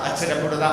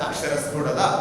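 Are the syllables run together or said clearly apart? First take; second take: run together; clearly apart. First: The syllables are slurred and run together. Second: Each syllable is said clearly and separately. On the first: The speaker calls it wrong. "അങ്ങനെയൊന്നല്ല പറയുന്നത്" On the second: The speaker calls it right. "അങ്ങനെ ഓരോ വാക്കുകളും എടുത്തെടുത്ത് സംസാരിക്കണം"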